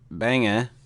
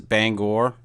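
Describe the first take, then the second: First: It is said in a Maine accent. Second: It is said in standard pronunciation. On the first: The speaker sounds like a local. "If you want to say it like you're from Maine" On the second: This is the conventional way to say it. "if you want to say it like it's supposed to be said"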